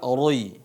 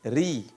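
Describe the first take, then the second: First: The r is pronounced thick and heavy. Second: The r is pronounced thin and light. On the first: The speaker calls it wrong. "bukan dibaca roi, itu tebal" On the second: The speaker calls it right. "mengarah kepada huruf i"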